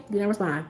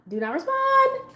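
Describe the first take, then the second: First: Low, softer self-warning; calming herself, low. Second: Very high, slow, held-out self-warning; calming herself, high-pitched. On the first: Woman telling herself to hold back, low soft self-calming. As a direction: say it down low, to yourself. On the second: Woman telling herself to hold back, high drawn-out self-calming. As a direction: stretch it out high, restraining yourself. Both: Retold or imitated. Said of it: "so I'm calming myself".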